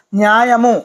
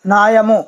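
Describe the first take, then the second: First: న్యాయము said with a clear "nya" glide at the start; teacher says న్యాయము fully as "nyaa-ya-mu"; original Sanskrit form. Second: న్యాయము said as plain "naa-ya-mu" with no y glide; derived Telugu form. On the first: Teacher giving the prakriti form న్యాయము, carefully pronounced. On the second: Teacher giving the vikriti form of న్యాయము with the glide dropped. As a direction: drop the y from న్యాయము, say "naayamu". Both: Shown as a demonstration. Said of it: "ప్రకృతి వికృతులు ఉన్నాయండి".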